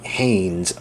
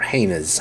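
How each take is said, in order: First: "Haynes" as one syllable, HAYNZ; "Haynes" with no vowel before the final z; one-syllable pronunciation. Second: "Haynes" as two syllables, HAY-nuhz; "Haynes" split into HAY and nez; two-syllable pronunciation. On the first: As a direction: say "Haynes" to rhyme with "rains". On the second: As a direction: say "Haynes" with an extra vowel before the z. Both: Shown as a demonstration. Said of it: "however you pronounce it".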